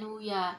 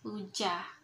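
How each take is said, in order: First: The middle consonant is a y sound. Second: The middle consonant is a j sound. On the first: This is how inland people say it. "orang pedalaman itu menyebutnya dengan huya" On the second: This is how coastal people say it. "orang pesisir itu menyebutnya dengan hujah"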